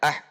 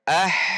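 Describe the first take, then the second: First: The final h is cut off short. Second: The final h flows out and is drawn out. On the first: The speaker calls it wrong. "Tidak ah" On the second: The speaker calls it right. "tetapi dialirkan ah"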